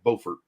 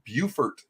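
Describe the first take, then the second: First: It uses the North Carolina pronunciation of the name. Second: It uses the South Carolina pronunciation of the name. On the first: This is how the North Carolina town is named. "but in North Carolina it's called Beaufort" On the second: This is how the South Carolina town is named. "It's pronounced Beaufort, South Carolina"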